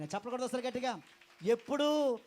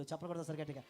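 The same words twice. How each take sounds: First: Loud call. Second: Said in the usual way. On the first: Real, not acted. Repeated call to congregation.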